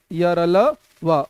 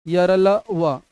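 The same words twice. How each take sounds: First: Slow teaching repeat; drawn out very slowly. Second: Said in the usual way. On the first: Shown as a demonstration. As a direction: stretch each syllable of यरलवा, slow and clear. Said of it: "slow repeat". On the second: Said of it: "repeated slowly".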